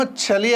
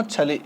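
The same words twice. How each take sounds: First: చలి with a firm palatal ch, pitched up; sound contrast demo. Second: చలి with the other, softer ch, nearer ts; sound contrast demo. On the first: Teacher showing pupils a letter, చలి with firm ch. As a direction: stress the opening ch of చలి. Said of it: "ఇదేమో చలి". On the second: Teacher contrasting letters for pupils, చలి nearer ts. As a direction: let చలి settle on a ts-like start. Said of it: "ఇదైతేనేమో చలి అని అంటాము". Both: Shown as a demonstration.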